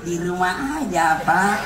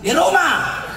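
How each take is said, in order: First: It is said in a soft, lilting, flirtatious voice. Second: It is said in a short, blunt, plain voice.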